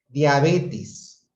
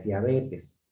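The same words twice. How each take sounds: First: Diabetes said as diabetis, the final e turned into i; wrong pronunciation. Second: Diabetes said with a clear final e; correct pronunciation. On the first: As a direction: say Diabetes with an i sound at the end, diabetis. (Diabetes con i final, diabetis, mal pronunciado) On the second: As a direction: say diabetes ending cleanly in e. (diabetes con e final clara, bien dicho) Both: Shown as a demonstration. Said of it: "cuando en realidad es diabetes".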